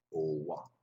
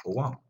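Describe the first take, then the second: First: Said in the usual way. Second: "Au revoir" pitched higher and louder, rising on "revoir". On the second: Shown as a demonstration. Teacher to class, showing how "Au revoir" is heard, high and rising. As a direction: sing out "Au revoir" high and bright with a lift at the end. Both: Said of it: "heard that way".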